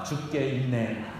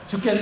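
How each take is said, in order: First: It is said slower with a breath inside. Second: It is said quickly as one unbroken word. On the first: It is with the Lord. The speaker calls it right. "한 번만 숨 쉬면 돼요" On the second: I am dying. The speaker calls it wrong. "죽겠네 하려고 하다가"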